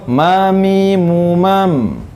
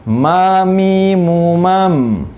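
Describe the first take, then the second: No difference in how they are said.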